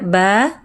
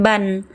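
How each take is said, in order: First: The syllable ends on a long open vowel. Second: The syllable ends with an n sound. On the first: The speaker calls it right. "Dibaca satu barisnya ketika waqaf mad iwad" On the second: The speaker calls it wrong. "Jangan ban"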